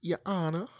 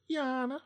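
First: High, loud, rising hammed-up lawyer address; fancy Southern lawyer. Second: Very high, loud lawyer-impression squeal; too high. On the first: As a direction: call on the judge in a put-on Southern accent. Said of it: "Huckleberry Finn lawyer type". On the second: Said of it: "Mm, too high". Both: Shown as a demonstration.

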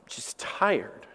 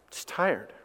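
First: Weary, fading out. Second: Weary and soft. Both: Real, not acted. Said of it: "one word that I normally say now".

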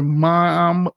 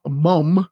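First: Said in the usual way. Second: MUM with a short British U vowel; British pronunciation. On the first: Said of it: "excuse me, mum". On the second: Shown as a demonstration. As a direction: say "mum" the British way, not American "mom". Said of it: "excuse me".

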